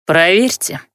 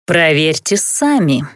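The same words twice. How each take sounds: First: Said with an ominous smile; menacing smile. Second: Slow, silky suggestion. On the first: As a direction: smile it as a threat. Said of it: "повторил Дейморец и улыбнулся". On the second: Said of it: "вкратчиво предложил Алеорн". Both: A narrator's reading.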